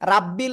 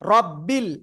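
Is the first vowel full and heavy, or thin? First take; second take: thin; heavy. First: The first vowel is thin and fronted. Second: The first vowel is full and heavy. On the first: The speaker calls it wrong. "অনেকে বলে না এ রাব্বি এদিকে আই, ... প্লিজ এরকম বলবেন না।" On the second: The speaker calls it right. "রব্বিল এরকম হতে হবে।"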